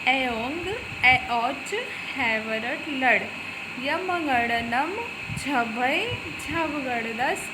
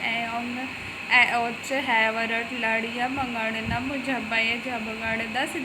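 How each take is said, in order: First: The syllables are recited slowly and leisurely. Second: The syllables are recited quickly and fluently. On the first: "हमने आराम से पढ़ा" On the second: "आपको अगर जैसे जल्दी याद अगर हो जाए तो आप ऐसे भी पढ़ सकते"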